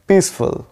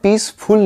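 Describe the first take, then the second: First: The last syllable is a quick, reduced 'fl'. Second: The last syllable is a full, clear 'ful'. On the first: The speaker calls it right. "ये होगा फल, जो कि आपको fast बोलना है last में" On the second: The speaker calls it wrong. "इसको आपको पीसफुल नहीं बोलना है, फुल तो नहीं होगा"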